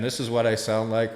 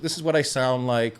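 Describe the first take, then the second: First: The voice sounds roomy, with added echo. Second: The voice sounds dry, with no echo. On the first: "with the reverb" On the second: "without the reverb"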